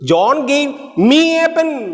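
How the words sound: The stress is on me.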